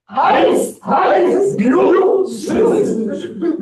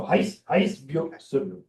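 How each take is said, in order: First: Chanted, belt each call out high; full chant. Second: A soft, half-voiced run-through of the calls; quiet walk-through. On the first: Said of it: "Here we go". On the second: Teacher quietly previewing the chant before the class tries it. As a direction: murmur the sequence to show the order. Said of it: "let's try it". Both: Shown as a demonstration.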